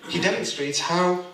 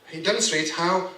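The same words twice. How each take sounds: The two takes are said the same way.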